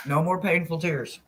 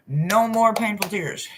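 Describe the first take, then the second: First: Said in the usual way. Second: Slower, higher, stressing more; slow emphatic affirmation; slow earnest mantra. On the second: Real, not acted. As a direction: declare it like a vow. Repeated mantra.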